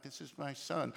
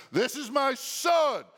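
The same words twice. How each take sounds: First: Said in the usual way. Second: "This is my son" shouted high and slow; booming voice from heaven. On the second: Shown as a demonstration. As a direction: proclaim "This is my son" like God from heaven. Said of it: "that's how the voice from heaven sounds".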